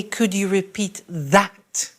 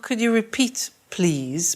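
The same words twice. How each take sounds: First: Slow phrase, leaning on "that"; stress on THAT. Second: Said in the usual way. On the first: Shown as a demonstration. Teacher showing learners the phrase to say, stressing "that". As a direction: draw out the final "that" clearly. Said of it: "You notice we say".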